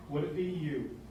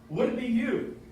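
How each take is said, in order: First: Said in the usual way. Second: "Would" raised and punched, rising at the end; stress on Would. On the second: Shown as a demonstration. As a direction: lean hard on "Would" and lift the question. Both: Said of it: "goosebumps time".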